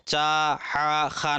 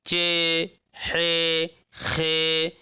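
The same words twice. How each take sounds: First: चा, हा, खा with long open "aa"; maruf, the rejected reading. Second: चे, हे, खे with long "ay" endings; majhul Urdu reading. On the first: Teacher shows how not to read them, चा, हा, खा in maruf "aa". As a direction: end चा, हा, खा on "aa". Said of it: "नहीं पढ़ेंगे बल्कि क्या पढ़ेंगे". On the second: Teacher models the Urdu reading, चे, हे, खे in majhul "e". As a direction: draw out चे, हे, खे on "e". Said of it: "मजहूल पढ़ेंगे उर्दू में।". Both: Shown as a demonstration.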